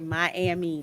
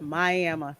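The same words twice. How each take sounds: First: It is said the way northerners say it. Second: It is said the way local Floridians say it. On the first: This is how outsiders from the North say it. "They never say Miami. They say that's a Yankee thing" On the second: This is how local Florida people say it. "my Florida relatives call it Miami"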